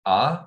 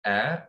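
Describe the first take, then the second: First: "a" as a plain open vowel, no glide. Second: "a" with a slight twist in the vowel. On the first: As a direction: demonstrate an untwisted, level "a". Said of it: "I say it a plain". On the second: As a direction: bend the "a" a little off plain. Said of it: "a little bit of a twist". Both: Shown as a demonstration.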